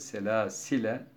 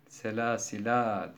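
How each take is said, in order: First: The word ends with a short 'e' sound. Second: The word ends with a long 'a' sound. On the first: The reciter continues past this word. "geçerken ise selâsile" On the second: The reciter stops at this word. "vakıf halindeyken selâsilâ diye durulur"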